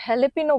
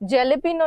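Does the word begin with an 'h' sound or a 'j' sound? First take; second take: h sound; j sound. First: The word begins with an h sound. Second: The word begins with a j sound. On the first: The speaker calls it right. "हेलेपिनो बोलते हैं" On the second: The speaker calls it wrong. "जेलेपिनो नहीं बोलते"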